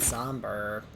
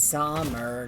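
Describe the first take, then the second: First: The word is said with a b sound. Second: The word is said without a b sound. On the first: The speaker calls it wrong. "I used the B again when I shouldn't be saying B" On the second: The speaker calls it right. "It's somber"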